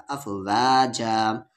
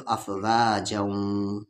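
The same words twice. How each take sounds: First: अफवाजा very slow, ending on open aa; stopping form. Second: अफवाजऊं slow, ending in a nasal hum; merged with ghunna. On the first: Teacher showing the pause form, अफवाजा drawn out open. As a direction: stretch the long vowels of अफवाजा and stop. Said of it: "और नहीं रुकेंगे तो". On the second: Teacher showing non-stop reading, अफवाजऊं hummed nasally. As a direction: hold the ऊं of अफवाजऊं in the nose. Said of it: "नहीं रुकेंगे तो". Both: Shown as a demonstration.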